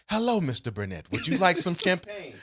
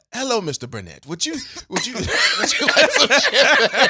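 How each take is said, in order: First: Lightly imitated African accent, pitch lifting toward the end. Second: Imitated African accent breaking into high, loud laughter; retry the fake African accent and crack up midway. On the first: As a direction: attempt a server's African accent, landing somewhere near Australian. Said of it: "African accent that you just used?". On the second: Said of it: "Ac-, African accent?".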